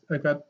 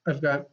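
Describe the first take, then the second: No difference in how they are said.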